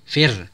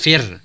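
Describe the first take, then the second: No difference in how they are said.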